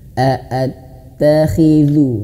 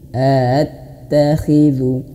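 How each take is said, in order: First: Each opening glottal stop is clearly separated. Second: The opening glottal stops are slurred together. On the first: The speaker calls it right. "tapi a a harus jelas" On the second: The speaker calls it wrong. "Jangan attakhidhu"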